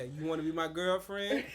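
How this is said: It is said in a deep, tough voice. The asker sounds cool and confident. The speaker calls it right. "You're trying to sound hard"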